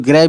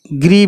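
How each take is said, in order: First: ग्रे with an "ay" vowel at the end; "ay" pronunciation. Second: ग्री with an "ee" vowel at the end; "ee" pronunciation. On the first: Teacher giving the variant some people use, ग्रे said with "ay". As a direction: say ग्रे to rhyme with "day". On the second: Teacher giving students one accepted reading, ग्री said with "ee". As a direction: say ग्री to rhyme with "free". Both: Shown as a demonstration. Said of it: "कुछ लोग ग्रे भी कहते हैं".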